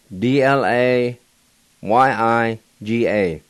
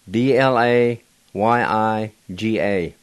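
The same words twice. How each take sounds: The two takes are said the same way.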